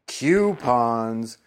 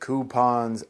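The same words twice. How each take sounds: First: The word starts with a 'kyoo' sound, like Q. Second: The word starts with a plain 'koo' sound. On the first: The speaker calls it wrong. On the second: The speaker calls it right.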